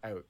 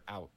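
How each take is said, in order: First: It is said the Canadian way, rounded. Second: It is said the American way, like ow.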